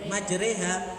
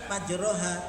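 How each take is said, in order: First: The r is light with an 'e' vowel. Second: The r is heavy with an open 'a' vowel. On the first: The speaker calls it right. "tidak dibaca majreha" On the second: The speaker calls it wrong. "kelintu membacanya tetap majroha"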